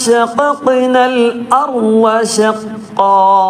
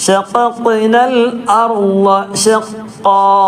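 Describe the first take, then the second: No difference in how they are said.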